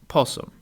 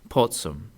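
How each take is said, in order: First: No T sound is heard before the S. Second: A T sound is heard before the S. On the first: "pronounced this verb without the T at all" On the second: "the T becomes very faint in front of the S"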